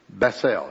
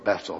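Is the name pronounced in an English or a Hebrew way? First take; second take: Hebrew; English. First: The name is said with a Hebrew pronunciation. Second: The name is said with an English pronunciation. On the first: "if you say it in Hebrew" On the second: "if you say it in English"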